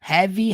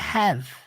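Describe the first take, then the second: First: The word ends with an added vowel sound. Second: The word ends cleanly on the V sound. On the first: The speaker calls it wrong. "Não é heavy" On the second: The speaker calls it right. "é have. Termina no V"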